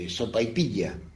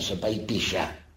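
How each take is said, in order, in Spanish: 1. La ll se dice a la manera tradicional de Mendoza. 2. La ll se dice a la manera habitual de Buenos Aires. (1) "ella decía" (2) "no decían"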